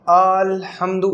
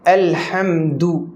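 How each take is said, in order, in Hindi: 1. पहला स्वर खींचकर लंबा किया गया है। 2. पहला स्वर छोटा है, खींचा हुआ नहीं।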